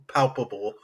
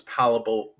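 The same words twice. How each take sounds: First: Said in the usual way. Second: "palpable" said as "PAL-uh-bull"; mispronounced word. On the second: Real, not acted. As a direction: drop the second p in "palpable". Slip, corrected right after.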